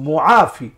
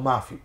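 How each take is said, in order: First: The word is said with three syllables, mu-a-fi. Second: The word is shortened to two syllables, ma-fi. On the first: It asks God to remove the affliction. The speaker calls it right. "কিন্তু শব্দটা ছিল আল্লাহু মুআফি" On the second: It says there is no God. The speaker calls it wrong. "আমরা মাফি বলার কারণে কিন্তু আমরা ক্ষতিগ্রস্ত হচ্ছি"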